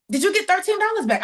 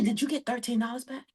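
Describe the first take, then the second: First: Higher and louder, spelling it out; louder repeat. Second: Softer, half-swallowed question; asking offhand, almost under her breath; mumbled first ask. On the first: Repeating to the lady who didn't catch it, louder. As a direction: say it again so she hears it this time. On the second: To the lady at the table, a soft offhand question. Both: Retold or imitated.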